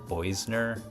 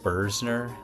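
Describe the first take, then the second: First: The first vowel sounds like 'oy'. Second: The first vowel sounds like 'ur'. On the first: The speaker calls it wrong. "I think I said Boisner" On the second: The speaker calls it right. "I think that's supposed to be pronounced Bursner"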